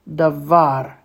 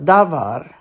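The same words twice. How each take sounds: First: The stress is on the second syllable. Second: The stress is on the first syllable. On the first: The speaker calls it right. "Hear the accent?" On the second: The speaker calls it wrong. "Davar would have the accent on the first syllable"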